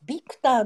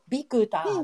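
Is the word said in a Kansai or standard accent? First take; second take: standard; Kansai. First: It is said in a standard accent. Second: It is said in a Kansai accent.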